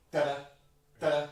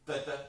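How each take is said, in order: First: Da, da, da, da sung sharply double dotted, long then very short. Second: Even, plain da, da, the way not to play it; wrong rhythm. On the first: Conductor showing the right double-dotted rhythm, sung snappily. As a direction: snap the short note late and quick. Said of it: "but go". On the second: Conductor showing the wrong, even rhythm, sung evenly. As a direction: sing it square and even, as the mistake. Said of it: "Don't go". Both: Shown as a demonstration.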